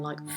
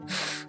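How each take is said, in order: First: The consonant has an added uh vowel after it. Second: The consonant is said alone with no vowel. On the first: The speaker calls it wrong. "The incorrect way of saying these letters will all have a kind of an uh sound" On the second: The speaker calls it right. "when you remove that uh sound, the pure sounds are"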